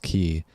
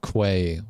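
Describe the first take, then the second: First: The word is said like 'key'. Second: The word is said like 'kway'. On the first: The speaker calls it right. "it's pronounced key" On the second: The speaker calls it wrong. "I had mispronounced it"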